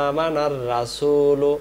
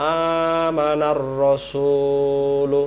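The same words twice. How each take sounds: First: আমানার রাসূলু with the madd held long; drawn-out vowel. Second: আমানার রাসূলু with every vowel held long and slow; drawn-out vowel. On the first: (আমানার-এ টান দিয়ে) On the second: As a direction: recite আমানার রাসূলু with full madd. (টান দিয়ে ধীরে আমানার রাসূলু) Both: Shown as a demonstration. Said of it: "আর এখানে টান দিতে হবে".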